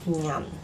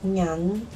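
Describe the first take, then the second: First: The word is said in the fourth tone. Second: The word is said in the second tone. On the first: It is the word's original tone. "the original tone, the fourth one" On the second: It is used in the word for coins. "in the coins pronunciation we use the second tone"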